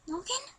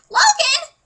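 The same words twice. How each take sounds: First: The name is said quietly. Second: The name is said loudly.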